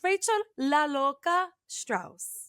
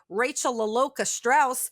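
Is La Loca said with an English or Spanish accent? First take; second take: Spanish; English. First: La Loca is said with a Spanish accent. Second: La Loca is said with an English accent. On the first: It sounds like who she is. "I do say La Loca with intent" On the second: It does not sound like who she is. "I could easily say"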